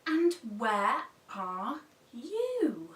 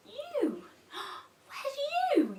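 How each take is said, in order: First: Said in the usual way. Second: Gasp, then ask much higher; a gasping, wide-eyed storytime question; mock surprise. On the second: Shown as a demonstration. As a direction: act amazed for toddlers. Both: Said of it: "wait for the children to pull it down".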